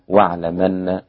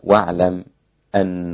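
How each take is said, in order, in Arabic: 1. تُحذف الهمزة وتندمج الكلمتان. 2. تُنطق الهمزة كاملة دون وقف. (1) "النقل" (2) "التحقيق"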